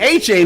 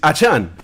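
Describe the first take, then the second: First: The second syllable sounds like the word chain. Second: The second syllable does not sound like chain. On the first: This is how others mispronounce the name. The speaker calls it wrong. "they were pronouncing his name wrong" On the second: This is how the player himself says the name. The speaker calls it right. "my friend, uh, it is Achan"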